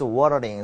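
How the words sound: It is said in an American accent. "미국식 발음 뭐야?"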